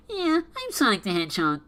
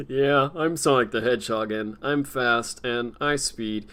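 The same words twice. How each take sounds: First: Higher, plugged-nose cartoon voice; pinched-nose Sonic. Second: Lightly lowered, slow Sonic impression; a hint of a slow, lower-pitched hedgehog. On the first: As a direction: talk like your nose is plugged up. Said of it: "plug up your nose". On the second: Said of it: "that's why it doesn't fit".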